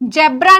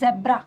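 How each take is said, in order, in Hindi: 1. यह शब्द 'j' ध्वनि से शुरू होता है। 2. यह शब्द 'z' ध्वनि से शुरू होता है। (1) "जेब्रा नहीं" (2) "इसकी जो साउंड होती है वो जा की होती है, जा के नीचे ऐसे नुक्ता लगा हुआ होता है"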